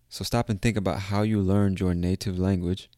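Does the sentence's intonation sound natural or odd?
odd. The sentence has an odd, unnatural intonation. The speaker calls it wrong. "I said that with a weird intonation"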